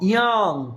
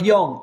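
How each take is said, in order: First: The vowel sounds open, like 'ah'. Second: The vowel sounds rounded, like 'o'. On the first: The speaker calls it right. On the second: The speaker calls it wrong.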